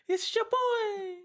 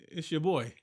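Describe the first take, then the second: First: Way higher, slow, squeaky. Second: Said in the usual way. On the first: Acted. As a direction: stretch it out in a squeaky falsetto. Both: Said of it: "don't ever do that again".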